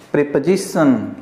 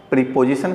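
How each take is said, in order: First: प्रीपोजिशन with a light "puh", "pre-puh-zi-shun"; correct "preposition". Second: प्रीपोजिशन with a long "pree-po"; wrong "preposition". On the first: Teacher models the correct "pre-puh-zi-shun". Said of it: "इसका सही उच्चारण होता है". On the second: Teacher shows the wrong "pree-po-zi-shun". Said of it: "दोनों गलत है". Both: Shown as a demonstration.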